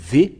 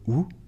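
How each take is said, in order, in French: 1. Elle se dit avec un V bourdonnant. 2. Elle se dit avec un son OO arrondi. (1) "donc ça se lit V" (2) "mais pas euh, ou. Ça n'existe pas du tout"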